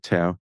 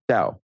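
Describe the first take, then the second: First: The word is pronounced the English way. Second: The word is pronounced the Chinese way. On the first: "let's keep calling it Tao" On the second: "The cor- correct pronunciation in Chinese would be Tao"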